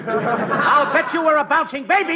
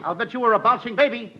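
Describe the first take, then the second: First: Said again louder for attention; louder repeat. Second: Said in the usual way. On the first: Shown as a demonstration. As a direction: repeat it so they hear. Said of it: "Nobody hears me". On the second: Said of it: "You said that once".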